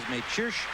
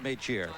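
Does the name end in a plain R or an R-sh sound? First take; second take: r-sh sound; plain r. First: The name ends in a buzzing r-sh sound. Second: The name ends in a plain r sound. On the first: It follows the original Czech pronunciation. "as close as we could come to the correct Czechoslovak pronunciation" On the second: It follows how the spelling looks in English. "the Americans see it ends in an R, so that's how it sounds"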